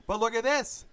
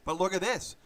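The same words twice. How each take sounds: First: Rising excited repeat. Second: Said in the usual way. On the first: Acted. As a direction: pitch jumps higher, a bit louder. Repeats line, then rising.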